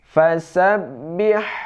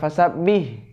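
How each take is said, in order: First: The final h sound is clearly heard. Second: The final h sound is dropped. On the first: The speaker calls it right. "ini pakai ha" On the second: The speaker calls it wrong. "jangan fasabbih"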